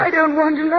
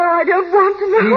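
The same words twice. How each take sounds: First: Higher, rising distress; begging her to stop, close to panic; distraught plea. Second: Much higher, louder and slower; pleading as it breaks toward a scream; near hysterical plea. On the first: Wife refusing to hear of the first wife, distraught. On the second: Wife shutting out the housekeeper's words, near hysterical. Wife refuses to hear more. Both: Acted.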